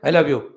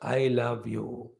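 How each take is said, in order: First: It is said flatly, without heartfelt expression. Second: It is said warmly, with heartfelt expression.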